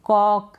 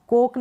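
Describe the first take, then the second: First: कॉक with an open "aw" vowel; open-o pronunciation. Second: कोक with a closed "oh" vowel; wrong long-o reading. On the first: Teacher corrects the misreading, open-o कॉक. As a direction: say कॉक as "kawk". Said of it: "नहीं पढ़ेंगे". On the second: Teacher rules out a misreading, closed-o कोक. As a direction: say कोक as "kohk". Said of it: "कोक नहीं पढ़ेंगे". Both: Shown as a demonstration.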